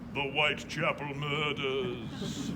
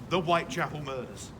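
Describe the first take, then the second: First: It is said in a dramatic put-on voice. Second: It is said in a plain, ordinary voice. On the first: It is said this way for effect. "in that voice for effect" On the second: This is the official name. "as they're officially known"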